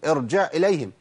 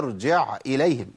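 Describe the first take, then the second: First: The ain runs straight into the hamza. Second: The ain is cut off before the hamza. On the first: The speaker calls it wrong. "ما اقولش ... خد بالك ما توصلش العين الى الهمزه" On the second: The speaker calls it right. "هي ارجع اليهم جع"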